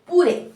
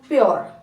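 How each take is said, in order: First: It is said as two syllables, 'poo-reh'. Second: It is said as one syllable, 'pyoor'. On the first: The speaker calls it wrong. "आपको ये rule जब पता नहीं था तब आप कैसे पढ़ते थे" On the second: The speaker calls it right. "इसको पढ़ना है प्योर"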